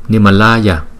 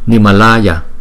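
First: The long A vowel is held only moderately. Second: The same.

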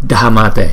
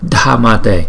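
The two takes are said the same way.

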